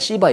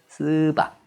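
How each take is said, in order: First: The first vowel is a clear 'i'. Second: The first vowel is an unrounded 'eu'. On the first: The speaker calls it wrong. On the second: The speaker calls it right.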